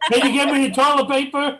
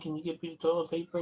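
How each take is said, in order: First: It is said loudly, with a projected voice. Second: It is said at a normal, quiet volume. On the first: A request made to someone hard of hearing. "It's like" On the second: An ordinary request to someone who hears well. "you didn't say"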